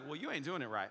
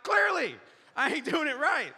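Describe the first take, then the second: First: Low, soft coworker's remark; understated, dropped-down deep voice. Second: High, loud exasperated yell; hammed-up sarcastic shout back; mock angry. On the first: Retold or imitated. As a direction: imitate an unruffled deep-voiced man. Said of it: "He's got this deep voice". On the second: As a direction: explode in pitched-up frustration. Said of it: "I'm so angry".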